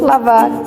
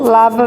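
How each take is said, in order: First: The word ends with an audible r sound. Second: The word ends on the vowel, r dropped. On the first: This is how the word is written. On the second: This is how people actually speak. "mas falamos"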